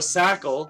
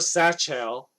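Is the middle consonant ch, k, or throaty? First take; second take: k; ch. First: The middle consonant is a hard k sound. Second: The middle consonant is a ch sound. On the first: "like you know Michael" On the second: "what most people would probably assume it is"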